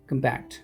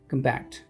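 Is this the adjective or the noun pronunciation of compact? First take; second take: adjective; adjective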